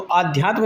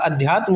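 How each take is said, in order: First: The first vowel is long. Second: The first vowel is short. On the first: The speaker calls it wrong. "आध्यात्म नहीं होता" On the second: The speaker calls it right. "अध्यात्म होता है, यानी छोटा आ होता है"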